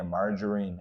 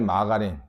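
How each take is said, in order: First: It is said with American English sounds. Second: It is said with Korean loanword sounds. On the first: "미국식 영어식 발음은 margarine이야" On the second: "우리가 마가린이라고 알지?"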